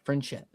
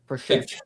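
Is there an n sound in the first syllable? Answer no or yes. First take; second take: yes; no. First: The first syllable has an added n sound. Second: The first syllable has no n sound. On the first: The speaker calls it wrong. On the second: The speaker calls it right.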